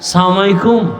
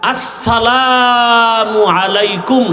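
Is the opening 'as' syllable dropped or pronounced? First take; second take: dropped; pronounced. First: The opening syllable is dropped and words run together. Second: The opening syllable is pronounced as two full words. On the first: The speaker calls it wrong. "সালাম দিতে পারে না" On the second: The speaker calls it right. "শুধু এই দুইটা শব্দ, এটা পারে না"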